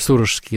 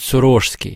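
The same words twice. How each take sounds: First: The stress falls on the first syllable. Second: The stress falls on a later syllable. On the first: The speaker calls it wrong. "по многолетней привычке я ударение ставлю в слове «Сорожский» на первый слог" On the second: The speaker calls it right. "хотя правильно ... говорит «Сорожский»"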